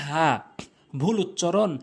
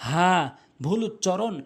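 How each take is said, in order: No difference in how they are said.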